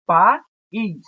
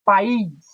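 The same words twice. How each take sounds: First: "País" cut in two, pa, then ís; louder "País" with a clear gap between vowels; split into syllables. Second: Said in the usual way. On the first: Shown as a demonstration. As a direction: pause inside "País" after pa. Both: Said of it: "Vamos separar aqui".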